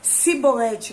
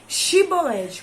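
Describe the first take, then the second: First: The word begins with an 's' sound. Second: The word begins with an 'sh' sound. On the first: The speaker is from the tribe. "com o som de C" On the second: The speaker is not from the tribe. "com o som de X"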